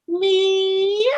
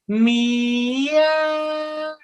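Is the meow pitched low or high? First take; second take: high; low. First: It is said at a very high pitch. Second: It is said at a low pitch.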